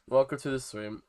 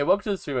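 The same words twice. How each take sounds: First: Said in the usual way. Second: Upbeat, louder stream greeting; excited welcome. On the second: Real, not acted. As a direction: greet the chat with energy. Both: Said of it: "stream intro said twice".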